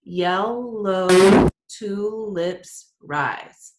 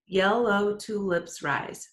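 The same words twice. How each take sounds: First: Yellow tulips rise drawn out very slowly and loud, each syllable split apart; counting syllables. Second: Yellow tulips rise said slowly, syllables spaced evenly; syllables counted. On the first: Teacher counting syllables for the class, slow and loud. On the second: Teacher repeats the line to count, slow and even. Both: Shown as a demonstration. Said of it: "Let's count 'em out".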